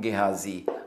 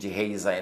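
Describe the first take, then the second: First: The name is said with Tagalog-style sounds. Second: The name is said with English-style sounds. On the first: The speaker calls it right. "pag sinabi mong Gehazi, mas malapit yan sa original Hebrew" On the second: The speaker calls it wrong. "yung Gehazi na yan sa English"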